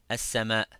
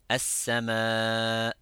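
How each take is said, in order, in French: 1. La voyelle finale est brève et n'est pas prolongée. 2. La voyelle finale est prolongée au-delà de deux temps.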